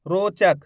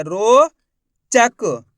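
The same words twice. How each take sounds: First: Said in the usual way. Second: "रोचक" stretched very slowly with a gap; "रोचक" broken in two, loud and slow; split into syllables. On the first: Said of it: "शब्द को अच्छी तरीके से सुन लो". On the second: Shown as a demonstration. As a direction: draw out a long rising ro, pause, then chak for "रोचक". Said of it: "ये चा लिख दिया".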